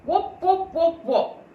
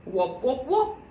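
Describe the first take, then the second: First: High hollow wop wop; as if talking into a rolled paper; hollow jug voice. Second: Muffled jug voice; hollow jug voice. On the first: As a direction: voice muffled inside a jug. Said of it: "made his voice sound very queer indeed". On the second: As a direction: boom it through a tube. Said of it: "His voice sounded like that". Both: A narrator's reading.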